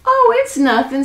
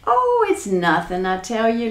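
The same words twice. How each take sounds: First: High, sly brush-off with a hint of a snicker; lightly snickered, pitched well up. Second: Amused brush-off, only lightly laughed; a touch of laughter, starting on a drawn "Oh"; laughing. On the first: Jack teases the nervous giant, lightly snickering. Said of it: "snickered Jack". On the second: Acted. Jack dismisses the giant's question, mildly laughing. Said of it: "laughed Jack".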